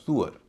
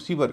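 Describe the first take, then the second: First: The first vowel sounds like 'oo'. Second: The first vowel sounds like 'ee'. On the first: The speaker calls it right. "इसका उच्चारण होता है सुअर" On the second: The speaker calls it wrong. "इसे हम सीवर कहते हैं"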